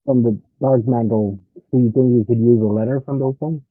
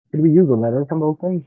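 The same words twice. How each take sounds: First: Muffled and muted over the line. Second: Muffled, like a bad connection. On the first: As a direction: speak through a bad connection. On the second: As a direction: sound muted and muffled. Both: Real, not acted. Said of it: "he sounds very muted or muffled".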